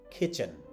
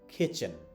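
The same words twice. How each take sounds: The two takes are said the same way.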